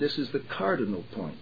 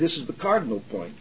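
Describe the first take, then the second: First: Each syllable is clear but naturally paced. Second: The syllables are slurred and run together. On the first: The speaker calls it right. "that doesn't sound unnatural" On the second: The speaker calls it wrong. "But neither do you seem to say"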